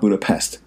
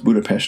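First: It is said with an American pronunciation. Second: It is said the way locals say it. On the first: The speaker calls it wrong. "not Budapest ... the American enunciations" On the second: The speaker calls it right. "apparently it's pronounced Budapest"

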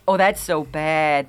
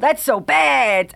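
First: The line is delivered softly, without punch. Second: The line is delivered with more punch and force.

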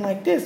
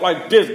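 First: The voice is thin, soft and weak. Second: The voice is deep, loud and chesty. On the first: The speaker lacks masculine confidence. The speaker calls it wrong. "A lot of y'all talking like this" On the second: The speaker sounds strong and confident. The speaker calls it right. "When you got to talk like this"

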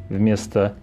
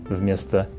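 Both takes have the same delivery.

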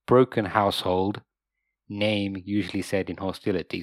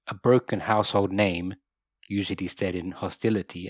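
First: There is a pause after 'household'. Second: There is a pause after 'name'.

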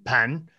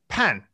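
First: The pitch rises from mid to high. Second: The pitch falls sharply from high to low. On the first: "Is it inside the entrance or in the kitchen?" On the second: "fourth tone"

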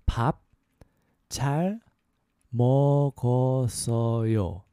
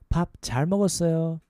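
First: It is said slowly. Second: It is said faster.

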